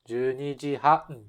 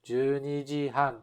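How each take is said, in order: First: The pitch stays up until han. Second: The same.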